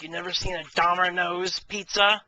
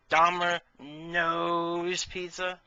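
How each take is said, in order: First: Said in the usual way. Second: Very slow, stretched Domino's pizza; milk the punchline Domino's pizza slowly; Domino's pizza dragged out word by word; drawn-out punchline. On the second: Shown as a demonstration. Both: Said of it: "Get it?".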